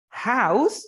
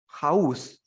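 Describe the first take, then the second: First: "house" pushed high and loud, rising at the end; exaggerated syllable stress. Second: "house" at usual pitch, falling at the end; falling stress. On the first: Teacher offering a choice of stress, "house" high and rising. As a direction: swoop up on "house" as the first option. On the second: Teacher offering a choice of stress, "house" falling. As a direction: let "house" drop as the second option. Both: Shown as a demonstration. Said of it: "Syllable stress".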